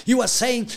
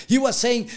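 No difference in how they are said.

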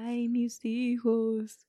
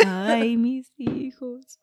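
First: Half-hearted, slow ghostly cry; a timid try at the wail; shy weeping ghost woman. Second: Loud, high, slow ghostly wail; weeping ghost woman. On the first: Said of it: "I was shy with that part". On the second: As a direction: commit fully to the mourning cry. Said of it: "You were like". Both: Acted.

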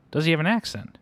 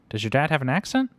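First: Put-on higher, louder question falling on "accent"; insistent repeat. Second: Put-on higher, louder question rising on "accent"; eager question. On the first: Repeats question after puzzled "What?. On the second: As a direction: ask it keenly, lifting "accent" at the end. Eager child questions new friend. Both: A narrator's reading.

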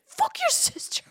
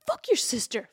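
First: Pissed escalating. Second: Pissed. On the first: Girlfriend complaining to the brother, mock shrieked rage. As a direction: repeat it, climbing into a shriek. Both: Retold or imitated. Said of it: "All pissed".

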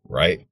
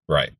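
First: "right?" rising as a check for agreement; questioning RIGHT. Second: "Right." short and falling, as an answer; confirming RIGHT. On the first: Host asks would-be loyal subscriber to agree, rising "right?". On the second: Host answers his own question for the subscriber, falling "Right.". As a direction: drop "Right." as a settled answer. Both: Real, not acted.

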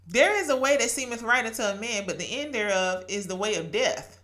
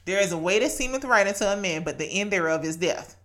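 First: "There is a way" recited from memory in a steady verse cadence; scripture recited. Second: Put-on "There is a way" rattled off fast, like a verse drilled in since childhood. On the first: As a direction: recite it like a verse known by heart. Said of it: "I'm mad I spit it like that". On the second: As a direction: reel it off quickly from memory. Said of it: "I know why I spit it like that". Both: Shown as a demonstration.

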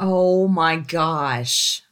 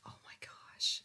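First: Very slow, stretched-out oh my gosh; a slow, long gasp of oh my gosh; drawn out. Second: Whispered oh my gosh; a voiceless, hushed oh my gosh. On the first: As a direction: drag out each word in disbelief. Stunned reaction to the story. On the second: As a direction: breathe it out in a shocked whisper. Stunned reaction, said under breath. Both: Real, not acted.

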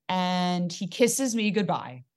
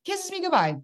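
First: Said in the usual way. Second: Much higher, disbelieving repeat; can-you-believe-it high voice; incredulous repeat. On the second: Real, not acted. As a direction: pitch it way up in disbelief.

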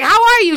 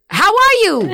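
First: High, loud, flustered repeat; starstruck greeting. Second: High, loud, starstruck squeak; starstruck greeting. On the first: Rapper retelling meeting [name], flustered high squeak. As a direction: nervously blurt it again, high. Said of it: "I didn't even know what to say". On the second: Starstruck rapper greeting [name], high squeaky awe. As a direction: blurt it out high and nervous. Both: Retold or imitated.

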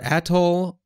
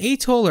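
First: Atoll said as AT-oll; short A in atoll. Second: Atoll said as AY-toll; long A in atoll. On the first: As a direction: open "atoll" with a short a, as in cat. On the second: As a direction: open "atoll" with a long AY sound. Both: Shown as a demonstration. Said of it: "is it atoll or atoll".

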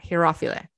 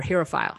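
First: Herophile as he-RAH-fee-luh; variant pronunciation. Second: Herophile as HERR-uh-file; anglicized pronunciation. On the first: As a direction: stress the second syllable of Herophile, final e sounded. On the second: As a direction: end Herophile like the word "file". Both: Shown as a demonstration. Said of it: "however you want to say it".

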